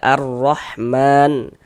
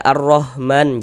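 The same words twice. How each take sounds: First: The h is a strong, breathy throat sound. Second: The h is a light, ordinary h sound. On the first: The speaker calls it right. "tapi baca ar-Rahman ... H pedas ... kayak orang kepedasan" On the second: The speaker calls it wrong. "jangan baca ar-Rahman, jangan"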